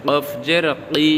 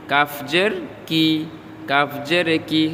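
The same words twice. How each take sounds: First: 'কফ' and 'কি' with a back q; tongue-root Q. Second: Said in the usual way. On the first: Shown as a demonstration. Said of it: "জিহ্বার গোড়া তারপর উপরে তালুর সঙ্গে". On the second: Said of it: "normal উচ্চারণ".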